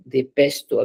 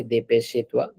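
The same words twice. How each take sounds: First: "dépêche-toi" as de-pesh-twa, silent final E; correct French pronunciation. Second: "dépêche-toi" with an extra ay sound after sh; wrong pronunciation demo. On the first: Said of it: "it's not A sound at the end". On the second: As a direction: mispronounce "dépêche-toi" as de-pesh-ay-twa. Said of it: "Don't, don't say". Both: Shown as a demonstration.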